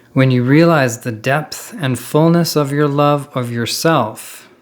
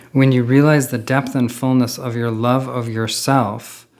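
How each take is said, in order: No difference in how they are said.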